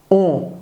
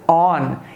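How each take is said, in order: First: It ends in a nasal vowel without closure. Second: It ends with the tongue closing on n. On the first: The speaker calls it wrong. "a gente não diz on como em ônibus. A pronúncia não é essa" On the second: The speaker calls it right. "A pronúncia é on"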